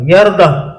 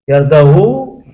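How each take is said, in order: First: The word ends on a bare h sound. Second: The word ends with an added u vowel. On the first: "disukunil ha" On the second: "dan damanya"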